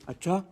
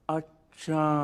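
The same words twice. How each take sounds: First: It sounds shocked and surprised. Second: It sounds thoughtful and drawn out.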